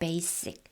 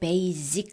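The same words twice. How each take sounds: First: The middle consonant is an s sound. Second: The middle consonant is not an s sound. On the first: The speaker calls it right. "이거 S 발음인데요. basic 이거고요" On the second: The speaker calls it wrong. "basic 하고 발음하면 안 되고요"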